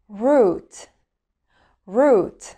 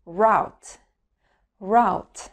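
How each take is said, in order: First: Route in British English as "ROOT"; British accent demo. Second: Route in American English as "ROWT", rhyming with out; American accent demo. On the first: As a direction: say route the British way, rhyming with boot. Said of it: "هننطق الأول البريتش أكسنت". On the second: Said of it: "وبعدين الأمريكان أكسنت". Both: Shown as a demonstration.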